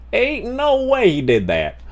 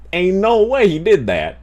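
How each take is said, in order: First: "Ain't no way he did that" jumps much higher, the "no" peaking; high disbelief. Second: Disbelief. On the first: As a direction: pitch the disbelief way up. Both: Real, not acted.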